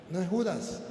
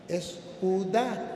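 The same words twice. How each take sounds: First: Judas with a final S, stress on JU; wrong take Judas. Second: Judá slowly, stress on final A, no S; right take Judá. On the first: Priest showing the uncle the wrong reading, Judas with S. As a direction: say Judas, ending on a clear S. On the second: Priest correcting his uncle, slow Judá stressed on the A. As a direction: stretch out Judá with the accent on the A. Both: Shown as a demonstration. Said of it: "tiene un acento en la A y le falta la S".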